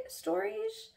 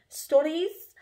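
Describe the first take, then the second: First: Playful high take on stories; toying with the word; high, soft stories. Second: Testing the word aloud; louder, higher stories. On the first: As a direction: lift stories up high and quiet. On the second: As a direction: say stories out, firmer. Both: Shown as a demonstration.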